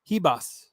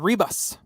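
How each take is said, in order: First: The name starts with an H sound. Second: The name starts with an R sound. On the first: "It's Hebas" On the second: "I thought it was Rebus"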